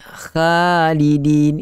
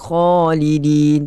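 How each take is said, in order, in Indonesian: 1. Alif panjang setelah kh terdengar ringan. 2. Alif panjang setelah kh terdengar berat. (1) "Tak boleh baca dengan khalidin. Itu nipis" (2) "Kita kena baca dengan khalidin"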